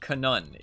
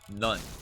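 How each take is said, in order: First: The word begins with a spoken K sound. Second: The word begins with an N sound. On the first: The speaker calls it wrong. "It's not kanun" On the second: The speaker calls it right. "it's none. Because knife has a silent K"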